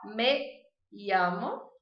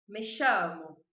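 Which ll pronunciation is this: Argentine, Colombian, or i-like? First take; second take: i-like; Argentine. First: The ll is said like an i sound. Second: The ll is said with an Argentine accent. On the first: "essa seria a pronúncia que eu adoto" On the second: "da Argentina e do Uruguai"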